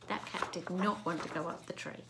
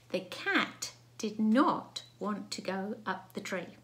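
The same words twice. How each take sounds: First: Said in the usual way. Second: Slow, word-by-word dictation; dictated sentence. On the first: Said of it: "To start with". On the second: Shown as a demonstration. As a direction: read it out slowly, spacing the words. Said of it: "Now, the sentence today is".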